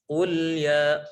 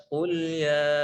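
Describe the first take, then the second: The two takes are said the same way.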